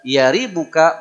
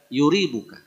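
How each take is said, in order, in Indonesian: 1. Suku kata pertama memiliki vokal a. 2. Suku kata pertama memiliki vokal u. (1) "boleh fathah" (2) "boleh dhammah"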